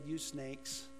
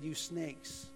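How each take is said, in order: First: It is said in a mild, nice tone. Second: It is said in a harsh, angry tone.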